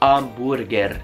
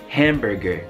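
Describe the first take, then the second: First: It is said with Italian sounds and a silent h. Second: It is said with English sounds and a spoken h. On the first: The speaker calls it wrong. "non volete dire hamburger" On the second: The speaker calls it right. "volete dire hamburger"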